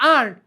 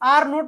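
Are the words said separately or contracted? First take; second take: contracted; separately. First: The words are contracted into one word. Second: Two separate words are said in full.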